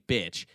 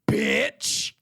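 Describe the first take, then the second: First: The word is said in a plain, neutral way. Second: The word is said in a harsh, aggressive way. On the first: "they didn't just say bitch" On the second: "the most needlessly aggressive bitch"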